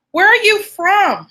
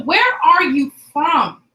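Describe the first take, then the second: First: Higher, louder, punchy call to the room. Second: Said in the usual way. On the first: Real, not acted. Host calling out to her online class, louder and higher. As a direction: throw the question out to the whole chat.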